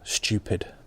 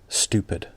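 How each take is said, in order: First: It is said in a northern English accent. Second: It is said in an American accent. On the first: "For many regional and northern accents like mine, you might hear it pronounced stupid" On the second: "if you're American, stupid"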